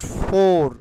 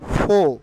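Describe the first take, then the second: First: The word ends with a drawn-out r sound. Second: The word ends without an r sound. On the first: The speaker calls it wrong. "Not ফোর" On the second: The speaker calls it right. "ফোর উচ্চারিত হবে ফো"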